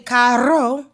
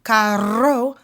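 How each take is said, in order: The two takes are said the same way.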